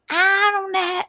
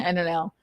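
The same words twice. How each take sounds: First: Very high Southern twang; cartoonish Southern accent, pitched up; idiotic Southern man. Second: Said in the usual way. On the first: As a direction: stretch it into a high mock Southern whine. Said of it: "Men with Southern accents sound like idiots".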